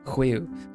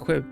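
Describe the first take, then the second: First: The sound is drawn out slowly. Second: The sound is said quickly.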